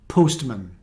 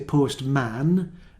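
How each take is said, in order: First: The second syllable is reduced to 'mun'. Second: The second syllable has a full 'man' vowel. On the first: The speaker calls it right. "Man changes to mun" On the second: The speaker calls it wrong. "you don't say postman because the second part is unstressed"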